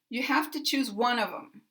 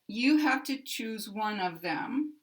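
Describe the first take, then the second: First: Unstressed words are shortened, linked and reduced. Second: Every word is stressed equally with full vowels. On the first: The speaker calls it right. "the system has unstressed and stressed words in a sentence" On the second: The speaker calls it wrong. "Each word gets equal stress and has the equal size circle"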